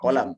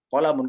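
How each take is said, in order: First: The word ends without any added 'un' sound. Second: The word ends with an added 'un' sound. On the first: This is the everyday spoken form. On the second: This is the full formal reading. "nggak usah bilang kita, ada kolamun. Tidak perlu"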